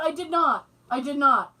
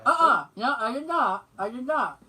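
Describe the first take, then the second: First: It is spoken clearly and normally. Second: It is mumbled as if the mouth is open.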